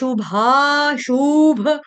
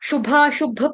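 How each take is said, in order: First: The second u vowel is drawn out long. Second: The second u vowel is short. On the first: The speaker calls it wrong. "गलती से बोला जाता है ... दूसरा ऊ जो है वो गलती से दीर्घ लिया जाता है" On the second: The speaker calls it right. "यहाँ पर दोनों शू छोटे हैं"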